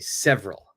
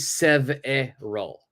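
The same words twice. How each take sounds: First: The middle vowel is dropped, giving two syllables. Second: The middle vowel is sounded as a full syllable. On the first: The speaker calls it right. "We say several" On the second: The speaker calls it wrong. "We don't say several"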